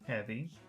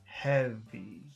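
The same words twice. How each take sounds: First: The word is said plainly, without extra emphasis. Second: The word is said with strong emphasis. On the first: "regular heavy" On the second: "focus heavy"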